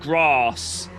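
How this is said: It is said in a fancy, posh accent. "That's fancy. Like, that's like down south fancy talk"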